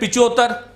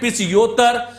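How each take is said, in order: First: Said as pichottar, with no h or y. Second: Said as pichyottar, with a y glide. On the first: "कुछ तो बोलते हैं पिचोत्तर" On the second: "कुछ बोलते हैं पिचयोत्तर"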